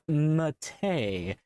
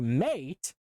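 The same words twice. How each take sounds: First: It sounds like the tea, yerba mate. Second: It sounds like the English word mate. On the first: The speaker calls it right. "it's pronounced Mate. Like the T. Yerba Mate" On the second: The speaker calls it wrong. "What is this, an Australian distro?"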